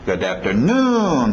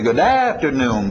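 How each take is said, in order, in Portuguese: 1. A batida principal cai na última sílaba. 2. A batida principal não cai no final. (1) "papapapam, e batendo lá no finalzinho" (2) "A tendência vocês vão querer dizer good afternoon, param papam"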